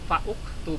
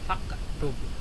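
First: A vowel u is sounded before the k. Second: The k follows fa directly, no added vowel. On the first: The speaker calls it wrong. "tidak fauktub" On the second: The speaker calls it right. "tapi waktub atau faktub"

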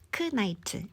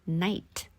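First: The K sound is pronounced. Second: The K sound is silent. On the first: The speaker calls it wrong. "크 나이트 아니고" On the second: The speaker calls it right. "K 묵음하는 연습"

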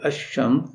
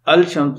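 First: The 'l' merges into a doubled 'sh'. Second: The 'l' is pronounced before the 'sh'. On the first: The speaker calls it right. "बल्कि अशम्स, तो यहाँ लाम अल का इदगाम हो रहा है" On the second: The speaker calls it wrong. "अलशम्स नहीं"

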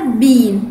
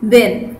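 First: The vowel is long, like 'bean'. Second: The vowel is short, like 'ben'. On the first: "في البريتش اكسنت اسمها بين" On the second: "لكن الامريكان اكسنت بيقولوا بن"

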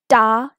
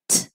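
First: The t sound is followed by a vowel. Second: The t sound is short with no vowel. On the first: The speaker calls it wrong. "Don't say it ta" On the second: The speaker calls it right. "This is t"

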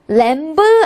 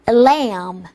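First: A b sound is pronounced at the end. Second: No b sound is pronounced at the end. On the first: The speaker calls it wrong. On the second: The speaker calls it right.

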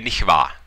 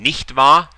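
First: The t at the end of nicht is dropped. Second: The t at the end of nicht is pronounced. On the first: "They leave out the T at the end, make it a little bit of a shorter one" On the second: "Instead of saying nicht wahr"

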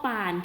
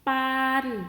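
First: The syllable is said on a low tone. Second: The syllable is said on a level mid tone.

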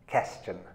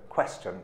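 First: The word begins with a plain k sound. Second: The word begins with a clear kw sound. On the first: The speaker calls it wrong. "many Korean speakers say this" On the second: The speaker calls it right. "You need to say question, qua, qua"

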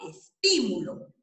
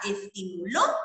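First: The stress is on the second syllable, ti. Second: The stress is on the last syllable, lo. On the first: It is a noun. "la puedo convertir en esdrújula" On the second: It is a past-tense verb form. "la puedo convertir en aguda"

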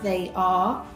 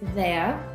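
First: The words are said as two full separate words. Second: The words are said as one short contracted word. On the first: "as in they are becomes" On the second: "becomes there"

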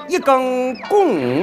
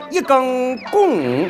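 First: Shanxi accent with the tones falling downward. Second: Shanxi accent with the tones falling downward.

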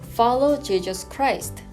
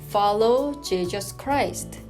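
First: The sentence is read at a faster pace. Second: The sentence is read at a slow pace. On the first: "조금 더 빨리 해보겠습니다" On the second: "한번 천천히 읽어보겠습니다"

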